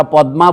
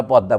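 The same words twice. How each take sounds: First: পদ্মা said louder with clear d and m, Hindi way; পদ্মা Hindi-style, stressed; Hindi pronunciation. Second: পদ্মা said as poddaa, Bengali way; পদ্মা relaxed, Bengali sounds; Bengali pronunciation. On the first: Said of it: "ওরা পদ্মা বলে". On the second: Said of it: "আমরা পদ্মা বলি". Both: Shown as a demonstration.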